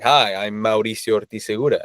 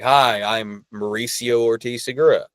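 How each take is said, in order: First: The name is said with a Spanish accent. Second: The name is said with an American accent.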